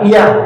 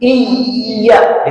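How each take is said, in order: First: The y sound is light and short. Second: The y sound is pressed and held long. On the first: It means to you, sun. The speaker calls it wrong. "jangan sampai iya iya" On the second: It means to you, O God. The speaker calls it right. "iya ditekan"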